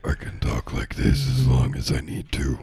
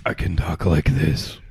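First: Lightly voiced bleating satyr; goat man voice. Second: Low bleating satyr voice; goat man voice. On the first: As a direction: hold a faint goat man voice. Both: Shown as a demonstration. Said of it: "try to do a goat man voice".

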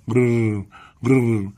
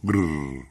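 First: Higher rolled bird purr; repeated parrot trill. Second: Weak rolled bird noise; faint parrot trill. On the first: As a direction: roll out two short parrot trills. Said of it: "تکرار کرد". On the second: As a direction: let out a feeble little parrot purr. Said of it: "فقط با صدای خفیف گفت". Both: A narrator's reading.

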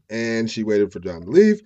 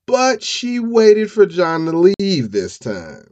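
First: Said in the usual way. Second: High, loud and slow, with "leave" stretched long; dramatic drawn-out emphasis. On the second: Real, not acted. Storyteller revealing she waited for John to leave, dramatic emphasis. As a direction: announce the twist, dragging out "leave".

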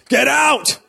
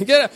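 First: High, loud outraged cry of get out; shocked shout. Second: Laughing echo. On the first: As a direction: yell it like a shocked crowd. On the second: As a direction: still high, loud, laughing through it. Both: Retold or imitated. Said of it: "I was expecting".

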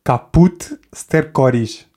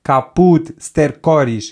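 First: "Caput stercoris" drawn out syllable by syllable; slow Latin demo. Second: A slow, clear "Caput stercoris" to copy; slow teacher model. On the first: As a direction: pronounce "Caput stercoris" slowly like a teacher. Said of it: "podes dizer". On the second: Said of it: "Repita comigo". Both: Shown as a demonstration.

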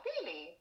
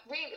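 First: Said in the usual way. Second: Really rising in a puzzled voice; confused. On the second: Shown as a demonstration. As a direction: ask really as if baffled. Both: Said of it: "she said really like she was confused".

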